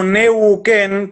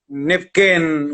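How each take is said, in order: First: The third sound is a u vowel. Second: The third sound is a v consonant. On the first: This is the current form of the name. "quedó como Neuquén" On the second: This is roughly the original native form. "en Mapudungún es algo así como Nevquén"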